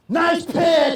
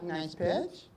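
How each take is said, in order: First: It is said loudly and with excitement. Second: It is said flatly, without enthusiasm.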